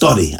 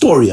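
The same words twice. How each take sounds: First: It is said in a Ukrainian accent. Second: It is said in a plain English accent. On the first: "הוא דיבר בפתא אוקראיני" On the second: "באנגלית אומרים story"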